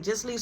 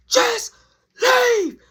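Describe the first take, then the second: First: Said in the usual way. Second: High, loud, broken-up yell. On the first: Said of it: "so I yell". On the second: Retold or imitated. Teller orders Jazz out at the door, yelling. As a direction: yell it word by word, exasperated. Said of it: "Just so I yell".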